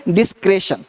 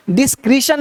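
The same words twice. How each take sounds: First: "डिस्क्रेशन" with e in the middle, falling; correct pronunciation. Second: "डिस्क्रिशन" with ee in the middle, raised pitch; wrong pronunciation. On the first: Teacher models the word for students, "डिस्क्रेशन" with an e vowel. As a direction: say "डिस्क्रेशन" like "dis-kre-shun". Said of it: "देखो क्या बोलना है". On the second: Teacher shows the mistake, "डिस्क्रिशन" with an ee vowel. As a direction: say "डिस्क्रिशन" like "dis-kree-shun". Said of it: "डिस्क्रिशन नहीं". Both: Shown as a demonstration.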